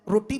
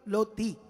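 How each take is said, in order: First: The word begins with an R sound. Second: The word begins with an L sound. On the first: The speaker calls it right. "मैं रोटी बोलूं" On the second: The speaker calls it wrong. "अगर मैं भद्दा हूं या हकला हूं तो मैं बोलूंगा लोती"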